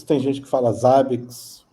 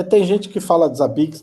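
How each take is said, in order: First: "Zabbix" stressed on the first syllable, ZA-biks; other common pronunciation. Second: "Zabbix" stressed on the last syllable, za-BIKS; one common pronunciation. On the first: Guest explains how others say it, "Zabbix" as ZA-biks. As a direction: hit the start of "Zabbix": ZA-biks. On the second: Guest explains how some people say it, "Zabbix" as za-BIKS. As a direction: land on the end of "Zabbix": za-BIKS. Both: Shown as a demonstration.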